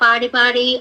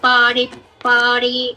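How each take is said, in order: First: The word is said without the emphasis. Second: The word is said with a strong emphasis. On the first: The speaker calls it wrong. "ఆ ఒత్తు పలకుండా" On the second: The speaker calls it right. "ఒత్తుందనుకోండి"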